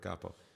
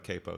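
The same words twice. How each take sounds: First: The word is pronounced the Italian way. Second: The word is pronounced the American way. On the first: It is the Italian word. "if I were speaking Italian, I, I would say the word capo" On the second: It names the guitar accessory. "but I'm talking about a capo here"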